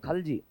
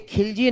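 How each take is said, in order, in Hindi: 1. पहले अक्षर में 'a' स्वर है, 'khal'। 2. पहले अक्षर में 'i' स्वर है, 'khil'। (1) "ये खलजी है" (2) "ये खिलजी नहीं है"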